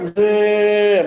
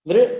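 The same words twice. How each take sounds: First: The vowel is held for several beats. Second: The vowel is short. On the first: "a pluta" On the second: "a hrasva"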